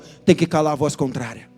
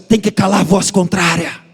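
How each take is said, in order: First: It is said in a plain, ordinary way. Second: It is said boldly, full-chested, like a prophet.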